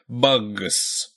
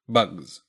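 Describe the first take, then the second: First: The word ends with a voiceless s sound. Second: The word ends with a voiced z sound. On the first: The speaker calls it wrong. "It's really hard to put a voiced G with an unvoiced S and say something like" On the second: The speaker calls it right. "turning that S into a Z"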